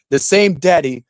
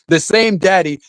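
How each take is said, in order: Both takes have the same delivery.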